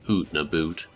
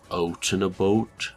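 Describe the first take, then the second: First: The vowel sounds like 'oo' in 'boot'. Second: The vowel sounds closer to 'oa' in 'boat'. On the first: This is a stereotype, not how Canadians talk. The speaker calls it wrong. "we don't really say like oot na boot" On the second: This is closer to a real heavy Canadian accent. The speaker calls it right. "it's like more oaty"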